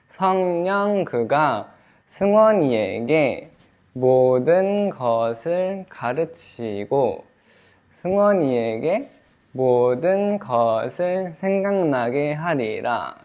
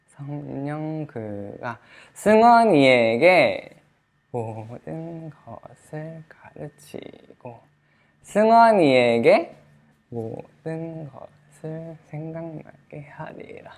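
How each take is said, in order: First: It is said at normal volume throughout. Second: It is quiet except the loud name.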